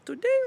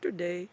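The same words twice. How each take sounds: First: The word is said on a high pitch. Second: The word is said on a low pitch.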